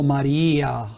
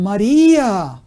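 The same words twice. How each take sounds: First: Said in the usual way. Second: «María» exclaimed louder and higher. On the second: Shown as a demonstration. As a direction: call out «María» with wonder. («María» exclamado con fuerza y más agudo) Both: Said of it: "en signo de admiración".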